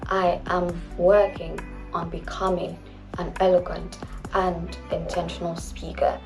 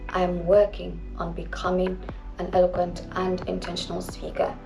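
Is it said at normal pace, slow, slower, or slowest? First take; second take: slower; slow. First: It is said even more slowly. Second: It is said more slowly than normal.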